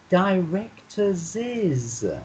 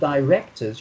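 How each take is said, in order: First: It ends with an extra 'iz' syllable. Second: It ends without an extra syllable. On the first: The speaker calls it right. "you need to say directors is" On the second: The speaker calls it wrong. "instead of directors"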